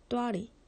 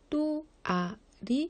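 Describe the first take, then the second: First: The word is said in two syllables. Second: The word is said in three syllables. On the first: The speaker calls it right. "또아리 됩니다" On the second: The speaker calls it wrong. "또아리 안 됩니다"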